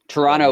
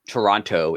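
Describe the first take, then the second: First: The name is said in a relaxed local way. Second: The name is said with every syllable carefully pronounced. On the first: The speaker is a local or Canadian. "is how you'd say it if you were from here or or Canadian" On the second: The speaker is an outsider reading the news. "is how you would say it if you're like a newscaster from Buffalo"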